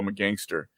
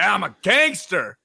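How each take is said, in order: First: It is said in a casual, ordinary-guy voice. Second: It is said in a tough, louder gangster voice.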